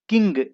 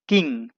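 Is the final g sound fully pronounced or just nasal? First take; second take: fully pronounced; just nasal. First: The ending has a clear, hard g sound. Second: The ending is nasal with no hard g. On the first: The speaker calls it wrong. "इस तरीके से नहीं पढ़ते हैं" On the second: The speaker calls it right. "नाक से बस बोल देते हैं"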